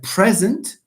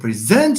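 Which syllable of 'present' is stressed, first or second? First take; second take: first; second. First: The stress is on the first syllable. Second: The stress is on the second syllable. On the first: It is an adjective meaning here. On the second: It is a verb meaning to give.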